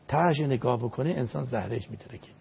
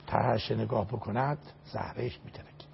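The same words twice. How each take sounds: First: Said in the usual way. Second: Hushed, awed warning; hushed whisper. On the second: Acted. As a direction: drop to a breathy whisper on the last words. Warning about looking down from bridge.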